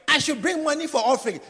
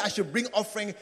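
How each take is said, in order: First: Higher, louder mocking shout. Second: Said in the usual way. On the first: Member mimics the pastor's call for offering, shouting. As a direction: shout the pastor's demand back at him. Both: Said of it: "When you say".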